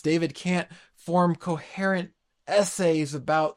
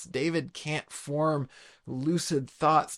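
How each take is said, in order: First: "form" pushed out louder and held; preacher hammering home to the church that David can't "form" words, stressing "form". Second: Each word laid down slowly, evenly; preacher explaining the Psalm to his congregation, slowly and deliberately. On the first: Punch the word "form". Same point restated with emphasis. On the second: Slow measured delivery. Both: Shown as a demonstration.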